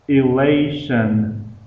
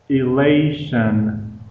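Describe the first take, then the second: The two takes are said the same way.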